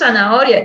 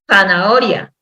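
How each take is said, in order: First: The word is pronounced in a careless, reduced way. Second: The word is pronounced carefully and in full. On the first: This is how people commonly say it. The speaker calls it wrong. "Decimos zanahoria" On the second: This is the proper form of the word. The speaker calls it right. "y es zanahoria"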